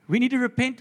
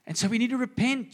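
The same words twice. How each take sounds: First: Forceful repeated call to repent; raised preaching voice repeating the call; louder. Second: Said in the usual way. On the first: Acted. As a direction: hit it harder the second time, loud and high.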